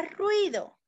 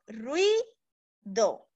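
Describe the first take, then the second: First: Said in the usual way. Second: "ruido" slowly split as rui, do, with a clear pause; Silbentrennung. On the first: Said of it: "otro ejemplo sería con la palabra". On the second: Shown as a demonstration. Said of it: "Diríamos".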